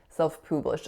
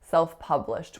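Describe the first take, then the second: First: The vowel in 'pub' is an 'oo' sound. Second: The vowel in 'pub' is a short 'uh'. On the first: The speaker calls it wrong. "I really often hear a oo or a oo sound" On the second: The speaker calls it right. "the sound should be an a, but it's spelt with a letter U"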